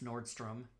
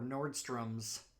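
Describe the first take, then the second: First: The name ends without an added s sound. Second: The name ends with an added s sound. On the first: The speaker calls it right. "it's Nordstrom" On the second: The speaker calls it wrong. "It's not"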